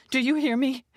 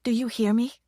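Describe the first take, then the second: First: Angry, higher and louder demand; bellowing. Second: Pressing, insistent question; urgent. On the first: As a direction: bellow it at the agent. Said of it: "she bellowed". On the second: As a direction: push hard for an answer. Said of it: "her voice becoming more urgent". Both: A narrator's reading.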